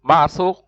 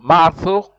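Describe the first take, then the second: No difference in how they are said.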